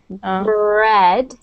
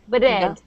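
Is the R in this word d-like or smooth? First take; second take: smooth; d-like. First: The R is smooth with no tap. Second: The R has a slight d-like tap. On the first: The speaker calls it right. "You can keep your tongue down. My tongue is down" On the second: The speaker calls it wrong. "I'm hearing a little bit of a d like this"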